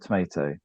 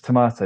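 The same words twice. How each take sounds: First: Tomato is said with the American pronunciation. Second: Tomato is said without the American pronunciation. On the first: It was picked up from American videos. The speaker calls it wrong. "there's Americanisms that come in" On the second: This is the way the family says it. The speaker calls it right. "I always say it's tomato"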